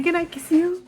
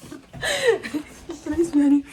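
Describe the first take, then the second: First: Said in the usual way. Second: Laughing. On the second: Real, not acted. Laughing while asking again.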